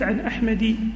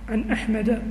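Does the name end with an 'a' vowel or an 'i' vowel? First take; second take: 'i' vowel; 'a' vowel. First: The name ends with a short 'i' vowel. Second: The name ends with a short 'a' vowel. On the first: The speaker calls it wrong. "ما قلت عن أحمدي" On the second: The speaker calls it right. "شوف عن أحمد"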